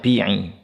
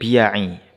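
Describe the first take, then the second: First: The word has two syllables without a y sound. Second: The word has three syllables with a y sound. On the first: The speaker calls it wrong. "Beliau membacanya bi'i" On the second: The speaker calls it right. "harusnya beliau membaca la ba'sa bidukhulil biya'i"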